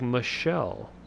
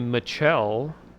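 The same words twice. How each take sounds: First: The middle consonant is a soft 'sh' sound. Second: The middle consonant is a hard 'ch' sound. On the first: The speaker calls it right. "it's like Michelle" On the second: The speaker calls it wrong. "you don't say Michelle"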